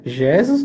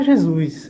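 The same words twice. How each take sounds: First: "Jesus" wrongly stressed as JÉ-sus; misplaced stress. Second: "Jesus" stressed on the last syllable, je-SUS; "Jesus" said as je-SÚS, first syllable light; correct word stress. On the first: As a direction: punch the JE of "Jesus", let the end drop. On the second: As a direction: land firmly on the SUS of "Jesus". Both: Shown as a demonstration. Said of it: "tem toda a diferença".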